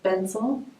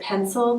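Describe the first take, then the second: First: The word begins with a B sound. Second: The word begins with a P sound. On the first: "they would say bensel" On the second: "instead of saying pencil"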